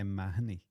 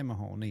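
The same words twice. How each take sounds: First: The name is said the Irish way. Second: The name is said the non-Irish way.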